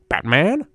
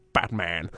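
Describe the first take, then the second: First: "Batman" pitched high, rising into a question; questioning tune. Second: "Batman" dropped low and soft, falling; low-voiced statement. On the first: Acted. Host guessing what the picture shows, questioning "Batman?" with a rise. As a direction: lift the end of "Batman" as if unsure. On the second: Host answering own guess, low and soft falling "Batman".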